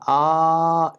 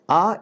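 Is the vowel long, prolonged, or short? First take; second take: prolonged; short. First: The vowel is drawn out about three times. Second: The vowel is held very briefly. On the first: "A is Plata" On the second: "A is Hraswa"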